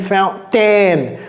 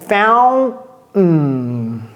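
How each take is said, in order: First: The T in fountain is clearly pronounced. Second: The T in fountain is swallowed. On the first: The speaker calls it wrong. "J'ai pas dit fountain" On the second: The speaker calls it right. "Ça descend"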